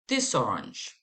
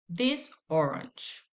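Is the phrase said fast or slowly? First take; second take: fast; slowly. First: It is said fast, words linked together. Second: It is said slowly, words kept apart.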